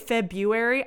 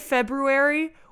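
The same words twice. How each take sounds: First: The first R is dropped. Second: The first R is lightly pronounced. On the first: "even though people say February" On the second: "with the R slid in a little bit in there"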